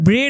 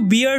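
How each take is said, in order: First: The vowel sounds like a short 'eh' sound. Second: The vowel sounds like the 'ear' sound. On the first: The speaker calls it wrong. "ব্রেড বা এরকম কিন্তু উচ্চারণ হবে না" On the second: The speaker calls it right. "এটার উচ্চারণ কিন্তু বিয়ার্ড হবে"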